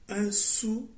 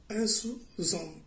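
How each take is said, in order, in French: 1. 'Sous' et 'homme' se disent sans son de liaison. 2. Un son z de liaison relie 'sous' à 'homme'. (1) "sans liaison" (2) "avec liaison"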